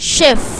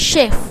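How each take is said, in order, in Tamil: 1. இந்தச் சொல் 'sh' ஒலியுடன் தொடங்குகிறது. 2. இந்தச் சொல் 'sh' ஒலியுடன் தொடங்குகிறது.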